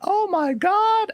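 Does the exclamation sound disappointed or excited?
excited. It is said with an excited, thrilled tone. The news seemed wonderful. "when it was first announced, we are like"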